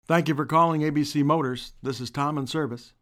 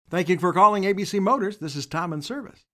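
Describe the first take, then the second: First: The greeting is said without a smile. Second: The greeting is said with a smile.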